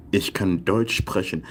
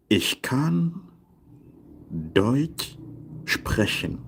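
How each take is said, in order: First: Said in the usual way. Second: Long pauses around Deutsch, sprechen set apart; slow word-by-word model. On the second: Shown as a demonstration. Teacher translating I can speak German, slow modelling. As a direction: lay the sentence out piece by piece for learners.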